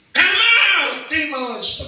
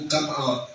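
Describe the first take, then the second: First: Much higher, louder command; exorcism command. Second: Said in the usual way. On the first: Shown as a demonstration. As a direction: bark it out at the demons. Commanding demons out.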